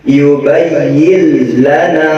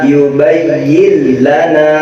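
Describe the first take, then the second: Both takes have the same delivery.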